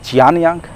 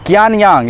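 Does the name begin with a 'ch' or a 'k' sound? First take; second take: ch; k. First: The name begins with a 'ch' sound. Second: The name begins with a 'k' sound. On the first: "और कभी च से भी होगा।" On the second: "सी को कभी क से भी उच्चारण होगा"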